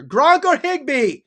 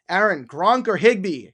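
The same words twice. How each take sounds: First: Mock shouted, high and slow; all-caps yell. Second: Said in the usual way. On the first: Shown as a demonstration. Host acting out a viewer's all-caps question, mock yelling. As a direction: belt it out like the caps read. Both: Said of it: "he's using all capital letters here".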